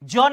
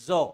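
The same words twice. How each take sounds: First: The consonant is a plain j sound. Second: The consonant is a buzzing z sound. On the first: The speaker calls it wrong. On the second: The speaker calls it right.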